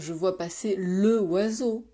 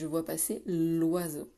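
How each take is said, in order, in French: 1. L'article garde sa voyelle pleine devant oiseau. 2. La voyelle de l'article s'élide devant oiseau. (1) "on va pas dire" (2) "on fait la liaison"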